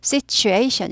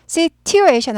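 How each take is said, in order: First: "situation" with the t softened to a CH sound; smooth CH in the middle of "situation". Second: "situation" slowly, T left unsoftened; careful, slow "situation" with a crisp T; hard T in situation. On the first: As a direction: say "situation" as sit-chu-ation. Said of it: "발음 부드럽게 되죠". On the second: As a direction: pronounce the t in "situation" as a plain T. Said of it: "트 발음이 취 발음이 나는". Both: Shown as a demonstration.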